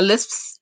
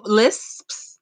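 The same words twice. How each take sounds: First: "lisps" tripping over the final sp, the s sounds blurring together; fumbled word. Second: "Lisps" said slowly and carefully, every s crisp; careful retry. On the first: Real, not acted. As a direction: stumble on "lisps" so the ending smears. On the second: Shown as a demonstration. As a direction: try "Lisps" again, articulating each sound. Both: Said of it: "I can't even say lisps".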